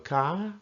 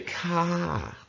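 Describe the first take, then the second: First: The tone is raised at the end. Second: The tone is not raised at the end. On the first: It ends a question. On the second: It is a plain polite ending.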